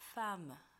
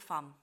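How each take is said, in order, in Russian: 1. Оно заканчивается слабым гласным после «м». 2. Оно заканчивается резко, на отрывистом звуке «м». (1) "А у вас должно прозвучать" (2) "если вы его скажете с русским акцентом, у вас получится"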